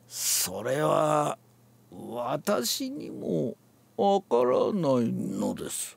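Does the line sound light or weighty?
weighty. It is said weightily, firmly pressing on "no". The intended meaning comes through. The speaker calls it right. "のできちんと抑え込むとね、それが出てくる"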